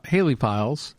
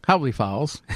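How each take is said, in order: First: "Haley" with a long ay in the first syllable; mispronounced name. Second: "Howley" with an ow sound in the first syllable; corrected name. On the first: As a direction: slip and say "Haley" as HAY-lee. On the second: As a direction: correct it to "Howley", said HOW-lee. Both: Real, not acted. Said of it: "I'm messing up on how to pronounce it".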